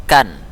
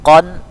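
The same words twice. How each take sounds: First: "kan" with a light k and open a; thin, forward "kan"; letter kaf. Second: Louder, heavy "Kon" from the back; letter qaf. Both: Shown as a demonstration. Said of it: "qaf dan kaf".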